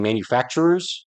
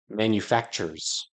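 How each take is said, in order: First: The word has an extra 'er' syllable. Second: The word lacks the extra 'er' syllable. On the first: This is the modern way to say it. "We're used to saying manufacturers" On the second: This is an old-fashioned way to say it. "he said manufacturers without the extra er"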